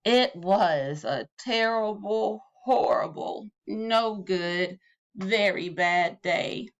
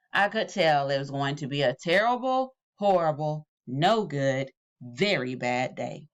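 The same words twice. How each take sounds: First: Slow, drawn-out, dejected; each word weighed down in gloom; slow gloomy refrain. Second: Each phrase sinking lower and glummer; dejected refrain dropping lower phrase by phrase; gloomy refrain. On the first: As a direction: drag the refrain out slowly. Refrain read slowly. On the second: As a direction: sigh out the refrain, dragging down. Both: A narrator's reading.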